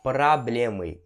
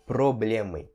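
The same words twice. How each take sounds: First: Проблемы said "prablémy", first O as A; O com som de A. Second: Проблемы said "problémy", with a full O; pronúncia errada com O. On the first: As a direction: open the first vowel of проблемы to an A. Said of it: "você vai pronunciar". (проблемы com "pra" no começo, não "pro") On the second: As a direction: keep a written-style O in the first syllable of проблемы. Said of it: "e não проблемы". (проблемы com "pro" no começo, O bem pronunciado) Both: Shown as a demonstration.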